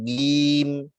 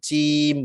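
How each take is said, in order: First: It begins with a hard g sound. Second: It begins with a voiceless ch sound. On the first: "bukan gim" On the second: "bukan cim"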